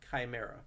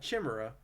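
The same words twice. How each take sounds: First: The first syllable is not said as 'chi'. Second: The first syllable is said as 'chi'. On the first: The speaker calls it right. "don't say chi" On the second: The speaker calls it wrong. "Not Chimera"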